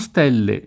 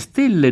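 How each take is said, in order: First: The stressed e is an open vowel. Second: The stressed e is a closed vowel. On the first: This is the local pronunciation from Romagna. The speaker calls it wrong. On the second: This is the Tuscan pronunciation. The speaker calls it right.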